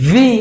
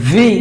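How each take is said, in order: Both takes have the same delivery.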